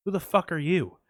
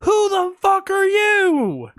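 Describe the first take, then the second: First: Said in the usual way. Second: Much higher, louder, slow "Who the fuck are you?"; hammed-up incredulous squeal; exasperated disbelief. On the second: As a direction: exaggerate the baffled outrage. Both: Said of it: "And I'm like".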